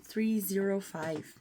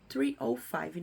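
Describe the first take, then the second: First: The middle digit is said as zero. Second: The middle digit is said as oh. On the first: The speaker calls it wrong. "não" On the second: The speaker calls it right. "a gente não fala zero"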